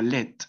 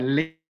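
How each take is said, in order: First: The word ends with a t sound. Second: The word ends without a t sound. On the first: The speaker calls it wrong. "no sería let" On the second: The speaker calls it right. "sería le"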